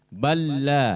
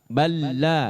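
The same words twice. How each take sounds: No difference in how they are said.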